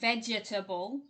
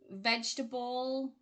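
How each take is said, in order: First: The middle vowel is pronounced, giving four syllables. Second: The middle vowel is dropped, giving three syllables. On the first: The speaker calls it wrong. "it's not vegetable" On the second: The speaker calls it right. "that middle E there"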